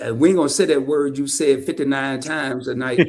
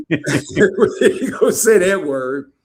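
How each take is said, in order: First: Said in the usual way. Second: Slow, louder, laughing through it; laughing as he repeats the tease. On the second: Real, not acted. Host teasing guest about an overused word, slow and laughing.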